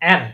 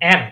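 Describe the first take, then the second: Both takes have the same delivery.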